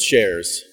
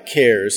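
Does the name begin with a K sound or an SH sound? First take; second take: SH sound; K sound. First: The name begins with an SH sound. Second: The name begins with a K sound. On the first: This is the form used in Sweden. "in Sweden, the K is an S-H" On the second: This is the form used in the U.S. "We go by CARES here in the U.S"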